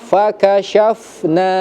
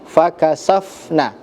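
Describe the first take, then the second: First: The middle consonant is a sh sound. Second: The middle consonant is a plain s sound. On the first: The speaker calls it right. "harus menggunakan pakai huruf huruf sya" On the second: The speaker calls it wrong. "tadi terdengar fakasafna"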